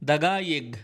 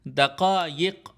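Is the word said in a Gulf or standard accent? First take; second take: Gulf; standard. First: The consonants are said as hard g sounds. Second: The consonants are said as deep q sounds. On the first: "इसको वो दगाइग बोलते हैं" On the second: "ये जो लफ्ज़ है दक़ाइक़"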